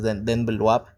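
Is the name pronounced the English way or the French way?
French. The name is said with French pronunciation. "si lo pronuncias en francés es"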